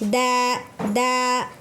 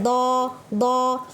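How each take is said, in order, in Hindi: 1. लंबा स्वर बारीक और हल्का है। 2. लंबा स्वर भारी और गोल है। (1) "इस अलीफ को भी बारीक पढ़ना है" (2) "इस तरह नहीं कि दो दो"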